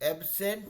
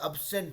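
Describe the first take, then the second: First: The first vowel is a clear 'eh' sound. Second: The first vowel is a short 'uh' sound. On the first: The speaker calls it wrong. "एबसेंट नहीं होके" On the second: The speaker calls it right. "अबसेंट होता है"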